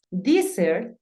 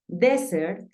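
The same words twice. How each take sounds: First: "Desert" said "dee-sert", drawn out; slow ee in the first syllable of "Desert"; different pronunciation. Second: "Desert" said "deh-sert", drawn out; slow short E opening "Desert"; unchanged E. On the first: Teacher contrasting desierto with postre, "Desert" as dee-sert. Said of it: "se pronuncian diferente". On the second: Teacher contrasting postre with desierto, "Desert" as deh-sert. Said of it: "termina en consonante". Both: Shown as a demonstration.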